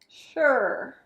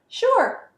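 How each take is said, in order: First: It sounds reluctant and grudging. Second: It sounds willing and agreeable. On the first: The speaker agrees but resents being asked. "what if you change the intonation a little bit?" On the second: The speaker is happy to help. "Sure, no problem"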